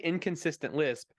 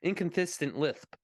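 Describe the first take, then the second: First: The s sounds are all said clearly. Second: Some s sounds are said with a lisp. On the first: "If we just say inconsistent lisp" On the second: "his actor lisp, it was inconsistent lisp"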